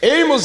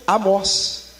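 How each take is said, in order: First: The name is said with an American pronunciation. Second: The name is said with its original pronunciation. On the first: "é uma pronúncia americana" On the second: "o nome Amós"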